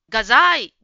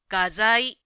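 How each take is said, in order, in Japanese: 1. この言葉は高めの音で発音されます。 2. この言葉は低めの音で発音されます。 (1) "画材という言葉が結構英語のような発音だった" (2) "もうちょっとイントネーションが低めで"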